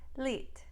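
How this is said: The vowel is a tense ee sound.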